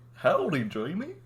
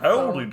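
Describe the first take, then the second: First: The pitch starts low and then rises high. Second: The pitch stays low throughout. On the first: "I need to go like it's low and then high" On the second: "that goes way too southern. Cause I keep I keep it too low"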